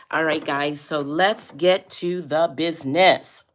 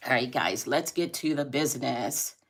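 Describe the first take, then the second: First: Loud, slow, pumped-up call to start; rally the viewers loudly; hyped host shout; louder hyped announcement. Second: Said in the usual way. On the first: Shown as a demonstration.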